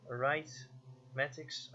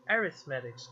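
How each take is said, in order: First: "Arithmetics" said slowly, sounded out as "right-matics" with the "ith" dropped; unsure first try. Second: "arithmetics" said as "a-RITH-matics", with the "th" in place; corrected pronunciation. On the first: Streamer stumbling over an unfamiliar word in game text, slow and unsure. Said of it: "oh, what is this word?". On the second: Streamer finally gets the word right, settled and clear. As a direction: settle on "arithmetics" clearly, stress on the second syllable. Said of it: "oh, I see". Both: Real, not acted.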